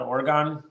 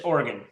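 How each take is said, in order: First: The last syllable sounds like 'gone'. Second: The last syllable sounds like 'gun'. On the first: The speaker calls it wrong. "they call it Oregon" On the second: The speaker calls it right. "It is Oregon, right? ... there's no there's no um on in it"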